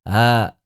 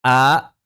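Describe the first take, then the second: First: The vowel starts with an eased, breathy onset. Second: The vowel starts with a full, crisp glottal stop. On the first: "hamzah musahalah" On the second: "Kalau hamzah yang muhaqqaqah"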